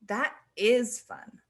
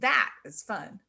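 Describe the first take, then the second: First: The word "is" carries the stress. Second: The word "that" carries the stress. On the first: The speaker was not sure it would be fun. "it implies maybe that you weren't sure if it would be" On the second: This thing is fun compared to something else. "it implies that that thing is fun and compared to something else"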